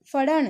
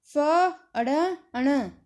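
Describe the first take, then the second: First: Said in the usual way. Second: Very slowly stretched फड़न, syllables pulled long; slow drawn-out reading. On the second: Shown as a demonstration. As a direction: draw out फड़न slowly like reading a new word. (फड़न को धीरे-धीरे खींचकर पढ़ना)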